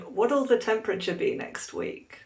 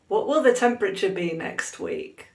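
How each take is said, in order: First: What will is shortened into one contraction. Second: What will is said as two full words.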